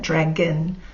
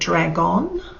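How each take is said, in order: First: The second syllable has a weak schwa vowel. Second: The second syllable has a full O vowel. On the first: The speaker calls it right. "we actually say it dragon" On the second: The speaker calls it wrong. "instead of dragon, if we read it phonetically"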